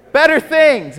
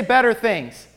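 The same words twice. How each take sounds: First: Louder echo. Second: Call and response. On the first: Real, not acted. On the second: Shown as a demonstration. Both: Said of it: "Everybody say".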